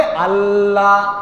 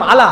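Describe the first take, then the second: First: আল্লাহ slow, with a lingering double L and long vowel; correct held L. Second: আলা short and quick, the L released at once; hurried single L. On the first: Preacher corrects the hurried version, held L in আল্লাহ. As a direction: hold the L of আল্লাহ, then draw out the ending. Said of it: "বলতে হবে". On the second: Preacher demonstrates letting go too soon, hurried single L in আলা. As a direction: rush through আলা without resting on the L. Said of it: "তাড়াতাড়ি বললাম". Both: Shown as a demonstration.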